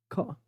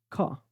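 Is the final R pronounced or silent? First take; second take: silent; silent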